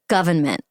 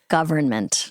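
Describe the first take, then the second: First: It is said with a Boston accent. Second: It is said with a neutral accent. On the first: The speaker calls it wrong. "Something about my Boston accent makes me want to say government" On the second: The speaker calls it right. "get rid of that, but it's government"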